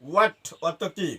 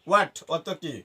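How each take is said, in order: Both takes have the same delivery.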